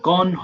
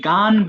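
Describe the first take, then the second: First: The vowel is a rounded 'o' sound. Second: The vowel is an open unrounded 'a' sound. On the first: The speaker calls it right. "গন হবে" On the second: The speaker calls it wrong. "এটা অনেকে গান বলে ফেলে"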